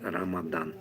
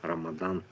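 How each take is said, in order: No difference in how they are said.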